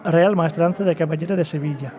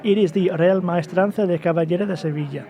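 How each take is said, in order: First: Full Spanish accent on the name. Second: Rolled Spanish pronunciation of the name; Spanish accent. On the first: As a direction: sound like a guy from Seville. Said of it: "He turned to, like, it's a different person right now". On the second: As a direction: say it like a local Sevillano. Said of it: "You sounded like this awesome, sexy". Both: Shown as a demonstration.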